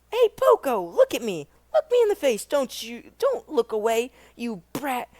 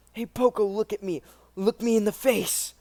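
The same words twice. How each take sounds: First: Higher, louder bully taunt; menacing bully. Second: Said in the usual way. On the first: Shown as a demonstration. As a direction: bark it at the kid like a street bully. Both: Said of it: "repeated line".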